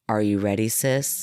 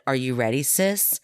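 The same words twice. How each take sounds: First: The voice stays flat in a monotone. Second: The voice moves with ordinary varied pitch. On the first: The speaker calls it right. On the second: The speaker calls it wrong.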